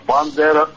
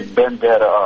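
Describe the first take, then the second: First: The first vowel sounds like 'a'. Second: The first vowel sounds like 'e'. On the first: The speaker calls it right. "а Бандера" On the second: The speaker calls it wrong. "абсолютно неправильно даже имя назвал, не Бендера"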